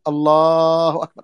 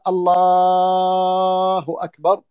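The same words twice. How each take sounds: First: Said in the usual way. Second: Very slow, drawn-out chanted call to prayer; muezzin's call. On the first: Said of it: "نقول نحن". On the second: Retold or imitated. Teacher imitating the muezzin's call for his students, slow drawn-out chant. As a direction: stretch it like the muezzin from the minaret. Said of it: "إذا قال".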